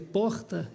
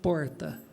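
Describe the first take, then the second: First: It is said with standard Portuguese sounds. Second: It is said with a Tupi-influenced R sound. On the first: "ao invés de dizer" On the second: "eles falaram português com fonética tupi"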